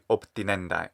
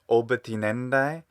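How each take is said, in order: First: A p sound directly precedes the t. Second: A short vowel is heard between b and t. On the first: The speaker calls it right. "So it should be optinendai" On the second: The speaker calls it wrong. "he says oba tinendai"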